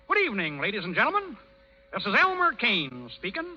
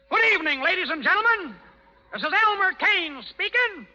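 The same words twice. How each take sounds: First: It is spoken quietly and hesitantly. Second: It is spoken loudly and more firmly. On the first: "They can't hear you"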